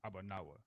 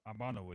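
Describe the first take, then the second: First: Every sound of the word is pronounced fully. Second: Some of the word's sounds are dropped. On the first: The speaker calls it right. "You pronounce everything all the way through" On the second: The speaker calls it wrong. "You don't say nothing like that"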